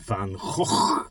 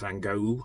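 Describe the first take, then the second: First: The g sounds are rough and throaty. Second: The g sounds are plain hard stops. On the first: This is how local speakers say it. The speaker calls it right. "you spit it out" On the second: This is how most people outside the country say it. The speaker calls it wrong. "everybody in the world calls Van Gogh or something like that"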